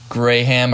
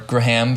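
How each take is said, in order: First: "Graham" said as GRAY-ham; two-syllable Graham. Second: "Graham" said as gruh-HAM; reduced-vowel Graham. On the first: Host offering one way to say a composer's name, "Graham" as GRAY-ham. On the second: Host offering the other way to say a composer's name, "Graham" as gruh-HAM. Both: Shown as a demonstration. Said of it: "however you want to say it".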